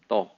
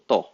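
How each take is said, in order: First: Only the first syllable is said. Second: Only the first syllable is said.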